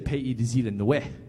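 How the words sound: It is said with an Illinois French pronunciation.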